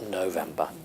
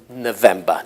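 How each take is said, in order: First: The first vowel is a full or-like sound. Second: The first vowel is a reduced uh sound. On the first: This is an old-fashioned or non-native pronunciation. The speaker calls it wrong. "not November" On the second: This is the modern native pronunciation. The speaker calls it right. "that's in November"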